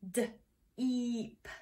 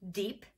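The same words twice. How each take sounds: First: D, then long eep, separated by a pause; "D" ... "eep", phonics-style; sounded out. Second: Said in the usual way. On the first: Shown as a demonstration. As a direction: softly sound out "D, eep" bit by bit. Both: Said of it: "get the blend?".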